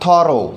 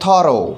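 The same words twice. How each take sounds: First: Thorough said again, a bit louder, short thuh-roh; repeated thorough. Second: Thorough said as thuh-roh, stress on the first syllable; pronounced thorough. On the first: Teacher repeating the word for students, emphatic echo. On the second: Teacher introducing the new word, clear falling model. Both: Shown as a demonstration. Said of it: "यहाँ पर जो pronunciation है वो है thorough".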